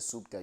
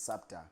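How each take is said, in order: First: The first vowel sounds like the vowel in 'cup'. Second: The first vowel sounds like the vowel in 'father'. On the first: The speaker calls it wrong. "the more you hear SUPTA, you think it's SUPTA" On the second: The speaker calls it right. "the right way of, of pronouncing the name, which is SAPTA"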